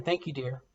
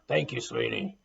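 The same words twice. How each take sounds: First: Said in the usual way. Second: A lightly lowered, gruff take. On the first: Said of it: "dear is another one". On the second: Shown as a demonstration. Testing how sweetie sounds in a gruff voice, lightly lowered. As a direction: say it rough, not sweet. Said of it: "how does that sound?".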